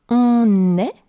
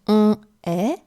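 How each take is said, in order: First: An n sound links the two words. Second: The two vowel sounds meet with no link. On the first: The speaker calls it right. "you heard me pronounce" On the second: The speaker calls it wrong. "and not"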